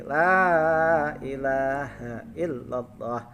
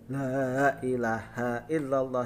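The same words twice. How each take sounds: First: The opening 'la' is light and thin. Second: The opening 'la' is heavy and thick. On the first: The speaker calls it right. "la-nya itu la tipis" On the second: The speaker calls it wrong. "bukan tafhim. Kalau tafhim itu tebal"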